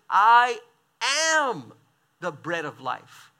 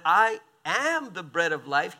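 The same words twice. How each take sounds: First: A loud I, then a pause before each following word; "I ... am ... the bread of life" broken apart, the I hit hard; solemn declaration. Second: Said in the usual way. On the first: Acted. Preacher proclaiming Jesus' words to the crowd, slow and weighty.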